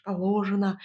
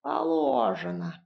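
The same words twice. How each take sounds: First: Said in the usual way. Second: High, drawn-out "положено"; mocking mimicry. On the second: A narrator's reading. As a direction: mimic "положено" with a long, raised, falling vowel. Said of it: "передразнила Баба Яга". (передразнить: «положено» высоко, врастяжку)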